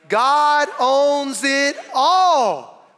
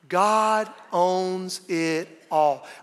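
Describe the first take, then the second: First: It is said with more volume. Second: It is said at normal volume.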